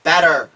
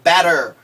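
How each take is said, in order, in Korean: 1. 가운데 자음은 부드러운 d 같은 소리예요. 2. 가운데 자음은 부드러운 d 같은 소리예요.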